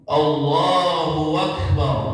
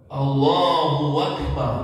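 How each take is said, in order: The two takes are said the same way.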